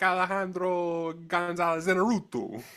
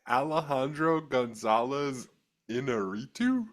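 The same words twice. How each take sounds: First: The name is said with exaggerated Spanish flair. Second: The name is said plainly, without Spanish flair. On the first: "if I was going for it, I'd be like" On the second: "that Long Island accent just pronounces that just beautifully"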